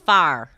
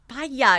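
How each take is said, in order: First: The word is said with one syllable. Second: The word is said with two syllables. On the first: "we just got one syllable" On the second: "It's like two syllables"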